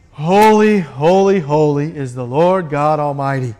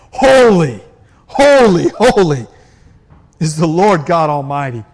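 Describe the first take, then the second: First: Mechanical chant, each holy the same; rote incantation. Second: Loud bursting holy, falling on each word; spontaneous outburst. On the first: Preacher mocking rote worship, droning empty repetition. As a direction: recite it like a dull ritual, going through the motions. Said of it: "this is not a repeated incantation". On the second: Creatures seeing God burst out, loud awestruck praise. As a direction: let each holy burst out of you in awe. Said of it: "spontaneously bursting out". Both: Shown as a demonstration.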